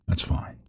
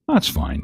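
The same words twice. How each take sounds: First: Soft breathy whisper; whispering in your ear. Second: Said in the usual way. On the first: Real, not acted. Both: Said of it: "Just let me keep whispering in your ear".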